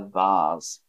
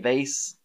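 First: It is said with a British accent. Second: It is said with an American accent. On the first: "I say a vase" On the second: "So Americans say vase"

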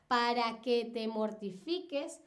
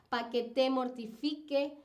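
First: The final syllable and final s are pronounced. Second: The final syllable and final s are dropped. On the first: The speaker calls it right. "la manera correcta de decir todas estas frases es la siguiente" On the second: The speaker calls it wrong. "es cuando se pierde o se desaparece o no se pronuncia uno o varios fonemas"

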